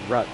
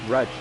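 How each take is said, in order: First: The name ends with a k sound. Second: The name ends with a ch sound. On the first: The speaker calls it wrong. "not Ruck" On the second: The speaker calls it right. "it's Rutch"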